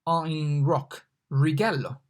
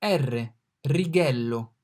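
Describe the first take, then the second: First: Righello with English R as in rock. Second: Righello with a trilled R, slow; rolled R. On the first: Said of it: "rather than rolling it". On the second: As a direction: roll the R in righello. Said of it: "If you cannot roll the R". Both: Shown as a demonstration.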